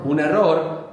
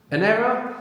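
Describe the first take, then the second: First: "error" as Spanish e-RROR with a rolled R; rolled double R. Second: "error" as English ERR-uh, high and rising; English pronunciation. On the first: Teacher confirming the student's answer, rolled R in "error". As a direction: roll the middle R of "error", stress the end. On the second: Teacher prompting the student, English pronunciation of "error". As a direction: offer "error" in English, no rolled R. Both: Shown as a demonstration. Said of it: "Double R tends to be rolled as well".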